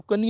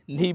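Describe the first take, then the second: First: "कनी" with K before the N; wrong, K sounded. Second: "नी" starting on N; silent K. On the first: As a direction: say "कनी", pronouncing the K. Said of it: "नहीं बोलना". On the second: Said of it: "बोलना है". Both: Shown as a demonstration.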